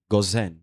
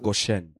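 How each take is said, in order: First: The name is said in its French form. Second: The name is said in its English form. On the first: This is the form used in French Bibles. "dans la version française, on écrit Gozen" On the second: This is the form used in English Bibles. "pas Goshen"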